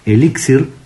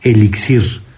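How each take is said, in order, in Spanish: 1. El acento cae en la sílaba del medio. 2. El acento cae en la última sílaba. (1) "tiene que ir con acento en la primera I, porque es una palabra grave" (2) "sonando fuerte al final"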